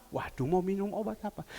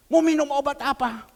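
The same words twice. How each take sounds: First: Softer, lower fretting over the medicine; worried mutter. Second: Louder, rising question to the congregation; tanya lantang "Mau minum obat apa?". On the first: Retold or imitated. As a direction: gumam cemas "Waduh, mau minum obat apa?". Repeats it as the worried sick woman. (bergumam cemas dan pelan) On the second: Acted. Asks the question out loud. (bertanya lantang)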